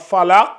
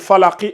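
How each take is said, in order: First: The word ends on a bare consonant. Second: The word ends with a short vowel. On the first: "quand on va la transformer en soukoun" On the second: "quand elle va passer de falaki"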